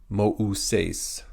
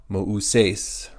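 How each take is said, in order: The two takes are said the same way.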